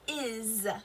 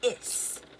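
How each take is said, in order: First: The word ends with a buzzing Z sound. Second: The word ends with a hissing S sound. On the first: The speaker calls it right. "we say more of a Z sound" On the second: The speaker calls it wrong. "We don't say is"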